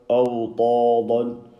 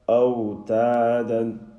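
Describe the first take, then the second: First: The t and d are heavy, full-mouth sounds. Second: The t and d are light, thin sounds. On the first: The speaker calls it wrong. "he has read full mouth" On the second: The speaker calls it right. "empty mouth"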